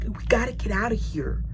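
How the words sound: The phrase is whispered very quietly. "he's whispering this"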